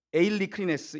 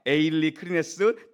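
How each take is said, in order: First: 에일리 크리네스 drawn out slowly, falling at the end; slow Greek word. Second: 에일리 크리네스 said slowly, syllable by syllable, rising at the end; slow Greek word. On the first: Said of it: "이 단어가 뭐냐면". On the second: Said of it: "태양빛으로 검사하다". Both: Shown as a demonstration.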